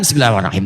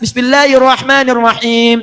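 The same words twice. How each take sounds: First: It is said quietly. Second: It is said loudly.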